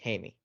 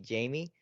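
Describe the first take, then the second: First: The name is said the Spanish way, like Hi-meh. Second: The name is said the English way, like Jamie. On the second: "if you pronounce it in English"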